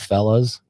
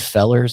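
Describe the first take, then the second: First: The word ends with a plain -a sound. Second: The word ends with an r-colored -er sound. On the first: "instead of fellas" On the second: "I say fellers instead of fellas"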